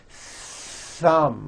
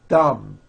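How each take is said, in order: First: The th sound is long with audible air friction. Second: The th sound is short with no air friction. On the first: The speaker calls it right. "You must stretch out the T H sound and hear the air friction" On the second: The speaker calls it wrong. "there was never any air friction. That's not good"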